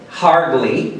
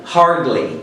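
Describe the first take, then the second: First: It is said with a strong R sound. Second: It is said with a strong R sound.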